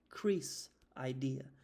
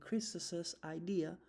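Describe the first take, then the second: First: The name has no added extra syllable. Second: The name gets an added extra 'iz' syllable.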